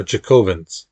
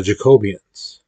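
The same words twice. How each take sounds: First: "Jacobins" said as JACK-o-bins, three syllables; corrected name. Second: "Jacobians" said as jaco-BEE-ans, with an extra i; slip on Jacobins. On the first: Teacher correcting herself to "Jacobins", correct pronunciation. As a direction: correct to "Jacobins", short and clean. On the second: Teacher naming the Jacobins, slips into "Jacobians" mispronounced. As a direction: mispronounce "Jacobians" as four syllables. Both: Real, not acted. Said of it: "Or Jacobins".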